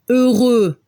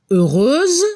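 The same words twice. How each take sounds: First: Heureux ending on an open eu vowel with no final consonant; heureux, stop on the vowel and sound no x; French masculine. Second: Heureuse ending in a clear buzzing z sound; heureuse, finish on a voiced z; French feminine with z. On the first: Teacher contrasting the masculine heureux for the class. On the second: Teacher contrasting the feminine heureuse for the class. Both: Shown as a demonstration. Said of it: "Al femenino se escucha como una Z al final".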